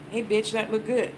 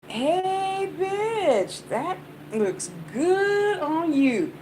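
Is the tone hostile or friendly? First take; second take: hostile; friendly. First: It sounds like a hostile insult. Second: It sounds like a warm, friendly compliment.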